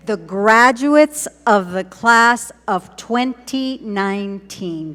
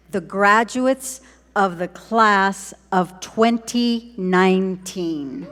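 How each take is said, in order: First: Loud, slow ceremonial announcement; slow, ringing repeat with big emphasis; rousing proclamation. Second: Slow, deliberate announcement of the class; slow, spaced-out ceremonial reveal; slow proclamation. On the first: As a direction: proclaim it louder for a cheering crowd. Repeating it to rouse the crowd. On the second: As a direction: announce it word by word at normal volume. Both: Real, not acted.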